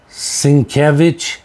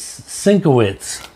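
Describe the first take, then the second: First: The name is said as Sienkiewicz. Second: The name is said as Sinkowitz. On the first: This is how other people say it. "people are pronouncing them Sienkiewicz" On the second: This is how the speaker usually says it. "I always pronounce this Sinkowitz"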